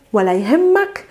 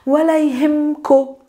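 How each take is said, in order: First: "ولا يهمك" with short ik ending; singular model. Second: "ولا يهمكو" ending in o, to a group; plural model. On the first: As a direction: say "يهمك" ending ik, to one woman. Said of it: "ولا يهمك if you're a female". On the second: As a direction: say "يهمكو" with final o. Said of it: "if you're a lot of people". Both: Shown as a demonstration.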